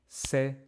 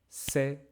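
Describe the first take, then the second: Both takes have the same delivery.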